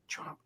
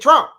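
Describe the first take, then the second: First: The word is said quietly and hesitantly. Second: The word is said loudly and boldly. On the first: The speaker is reluctant to say the name. The speaker calls it wrong. "I don't say and then Trump" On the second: The speaker proudly says the name. The speaker calls it right. "I might say it a little louder"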